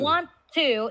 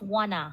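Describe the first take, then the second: First: Both words are said fully and separately. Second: The two words blend into one short word. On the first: "want to equals wanna" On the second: "equals wanna"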